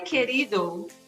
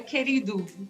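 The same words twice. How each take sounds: First: The final vowel is a full 'oh' sound. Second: The final vowel is a reduced 'oo' sound. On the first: The speaker calls it wrong. "não é querido" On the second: The speaker calls it right. "Tá escrito O, mas a pronúncia é U"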